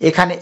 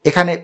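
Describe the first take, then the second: The two takes are said the same way.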